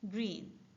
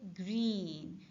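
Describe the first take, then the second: First: The vowel is shorter and weaker. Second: The vowel is long and full. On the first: The speaker calls it right. "We use the weaker sound" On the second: The speaker calls it wrong. "we don't say green"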